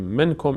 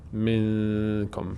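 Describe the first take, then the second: First: The n is pronounced clearly from its normal place. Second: The n is hidden in the nose and held. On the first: The speaker calls it wrong. "نمیگیم منکم ... اینجا اظهار میشه و این قاعده اشتباه است" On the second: The speaker calls it right. "نون رو از بینی ادا میکنیم، مقدارم روش مکس میشه"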